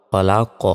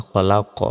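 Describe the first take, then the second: The two takes are said the same way.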